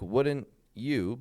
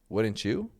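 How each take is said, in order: First: The two words are said separately and clearly. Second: The two words blend together into one sound. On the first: The speaker calls it wrong. "not like wouldn't you" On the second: The speaker calls it right. "we will m- put these two words together"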